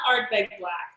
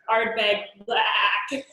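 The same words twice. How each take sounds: First: The vowel in Black is short and plain. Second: The vowel in Black is long and drawn out. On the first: The speaker calls it wrong. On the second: The speaker calls it right.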